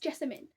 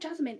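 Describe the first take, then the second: First: The name is said with three syllables. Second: The name is said with two syllables. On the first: The speaker calls it right. "it's Jessamine" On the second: The speaker calls it wrong. "it's not Jasmine"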